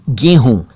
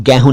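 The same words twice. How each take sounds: First: "गेहूं" corrected to GEY-hoon; correct close vowel. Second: "गेहूं" mispronounced as GAE-hoon; broad ai in "गेहूं"; wrong open vowel. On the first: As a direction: say "गेहूं" with a narrow ay. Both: Shown as a demonstration. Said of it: "गेहूं नहीं".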